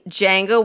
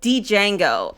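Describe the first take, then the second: First: The D at the start is silent. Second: The D at the start is pronounced. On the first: The speaker calls it right. "with like with like a silent D" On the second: The speaker calls it wrong. "Keynes said"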